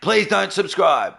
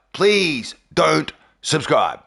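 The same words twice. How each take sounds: First: Said in the usual way. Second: "Please don't subscribe" drawn out slowly, word by word; slow emphatic plea. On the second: Real, not acted. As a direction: stretch "Please", pause, then "don't subscribe".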